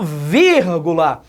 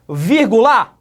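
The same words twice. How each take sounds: First: The stress falls on the first syllable. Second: The stress falls on a later syllable. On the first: The speaker calls it right. "A sílaba forte é a terceira de trás para frente" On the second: The speaker calls it wrong. "não rola"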